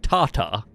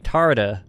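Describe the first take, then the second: First: It is said with a non-American accent. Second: It is said with an American accent. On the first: "But I'd be like" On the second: "In American, that'd be"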